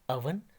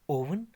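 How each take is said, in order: First: The first vowel is a short 'uh' sound. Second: The first vowel is a long 'oh' sound. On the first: The speaker calls it right. "इसका सही तलफ़ुज़ या correct pronunciation है" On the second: The speaker calls it wrong. "मगर ओवन इसकी correct pronunciation या सही तलफ़ुज़ नहीं है"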